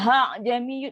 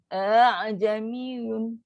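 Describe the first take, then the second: First: The second hamzah comes out as a clear h. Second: The second hamzah is a softened, half glottal catch. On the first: The speaker calls it wrong. "itu dah beri ha pula" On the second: The speaker calls it right. "di antara alif dengan huruf dengan apa hamzah. Separuh-separuh dia gabung"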